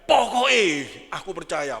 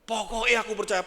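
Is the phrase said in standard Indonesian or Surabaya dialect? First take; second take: Surabaya; Indonesian. First: It is said in forceful Surabaya dialect. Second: It is said in plain standard Indonesian. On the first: It is a more forceful, emphatic statement of belief. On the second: It is a plain statement of belief.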